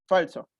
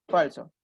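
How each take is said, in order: The two takes are said the same way.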